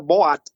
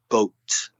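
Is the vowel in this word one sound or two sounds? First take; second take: two sounds; one sound. First: The vowel is split into two separate sounds. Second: The vowel is said as one single sound. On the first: The speaker calls it wrong. "So many people, oh, look in the sea, there is a boat. No, no, no" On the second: The speaker calls it right. "It's the same sound"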